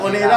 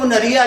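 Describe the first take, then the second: First: The word is said as 'monera'. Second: The word is said as 'munariya'. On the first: The speaker calls it right. "जो नाम है वो लेके दिखाओ। मोनेरा है" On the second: The speaker calls it wrong. "मोनेरा को कहते हो मुनरिया, जैसे नाचने वाली है।"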